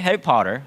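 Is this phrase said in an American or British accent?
American. It is said in an American accent. "you in English, you you read it this way"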